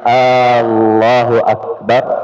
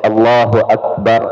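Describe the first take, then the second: First: The opening vowel is drawn out long. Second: The opening vowel is said short. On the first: It asks whether God is the greatest. The speaker calls it wrong. "kalau dipanjangkan alifnya" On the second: God is the greatest. The speaker calls it right. "Allah itu maha besar"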